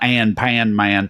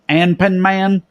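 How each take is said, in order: First: The name is said with English-style pronunciation. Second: The name is said with Japanese-style pronunciation. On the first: This is how people in Japan do not say it. The speaker calls it wrong. "not Anpan Man" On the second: This is how people in Japan say it. The speaker calls it right. "is probably how they pronounce it"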